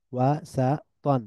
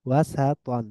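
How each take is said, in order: First: ওয়াসাতান slow, split wa, sa, tan; syllable by syllable. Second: Said in the usual way. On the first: Shown as a demonstration. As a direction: pause between the syllables of ওয়াসাতান. Teacher breaks word into syllables. (ভেঙে ভেঙে ওয়াসাতান)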